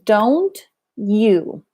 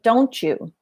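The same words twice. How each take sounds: First: The t and y sounds stay separate. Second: The t and y blend into a ch sound. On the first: "when you're learning English, you learn" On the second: "it's ch instead of don't, you"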